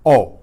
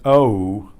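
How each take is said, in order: First: O as one pure vowel, no glide; short, clean Spanish O. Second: Long, gliding English O; O as an English diphthong, sliding toward oo. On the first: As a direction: say O steady, without any waviness. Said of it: "You hear it's a pure sound". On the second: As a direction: draw out O with a wavy glide. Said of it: "not an O, which we do in English". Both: Shown as a demonstration.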